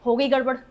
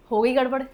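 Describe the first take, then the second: No difference in how they are said.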